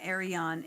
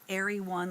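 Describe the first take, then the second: First: The name ends with an 'on' sound. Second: The name ends with a 'won' sound. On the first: The speaker calls it wrong. "which I found out is not Arion" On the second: The speaker calls it right. "it's Airy One"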